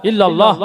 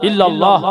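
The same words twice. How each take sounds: No difference in how they are said.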